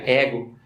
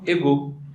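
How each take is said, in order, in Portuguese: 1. A palavra é dita com pronúncia portuguesa. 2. A palavra é dita com pronúncia francesa. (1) "a gente pronuncia ego" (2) "eles falam égaux"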